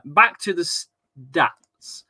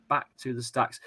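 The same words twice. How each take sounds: First: Stretched out slowly, a little higher and louder, like a segment jingle; drawn-out announcement. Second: Said in the usual way. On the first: Pretend. Host announcing the return to stats, drawn out. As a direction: drag out back to the stats as an announcer.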